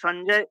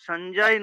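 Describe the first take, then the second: First: The name ends on a bare consonant sound. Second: The name ends on a bare consonant sound.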